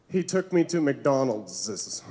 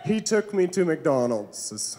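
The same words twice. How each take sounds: First: Put-on girlfriend's embarrassed line. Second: Relishing repeat. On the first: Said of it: "She said". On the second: Retold or imitated. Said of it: "that made my whole day".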